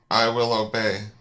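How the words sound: It is said firmly, with conviction.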